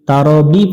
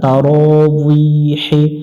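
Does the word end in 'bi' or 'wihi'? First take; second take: bi; wihi. First: It ends with a short 'bi' sound. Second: It ends with a longer 'wihi' sound. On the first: The speaker calls it wrong. "তারাবি পড়া যাবে না" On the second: The speaker calls it right. "আরবিতে এটা উচ্চারণ হয় তারাউইহি"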